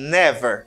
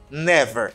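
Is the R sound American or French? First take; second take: American; American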